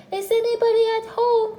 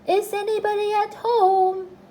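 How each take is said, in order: First: Loud call pitched right up high; high, forceful holler. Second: High, loud singsong call; long, ringing call on a high note. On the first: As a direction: repeat the call more insistently, louder and higher. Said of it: "called out Pooh very loudly". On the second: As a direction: call into a hole to see who's in. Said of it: "called out". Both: A narrator's reading.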